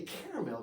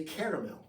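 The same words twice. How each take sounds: First: "caramel" squashed into two syllables, CAR-mul; American pronunciation. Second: "caramel" said the British way, in three full syllables; British pronunciation. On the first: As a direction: say "caramel" the plain American way, as "carmel". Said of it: "so much better than caramel". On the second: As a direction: say "caramel" as CARE-a-mel, British style. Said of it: "words that they said in Britain". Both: Shown as a demonstration.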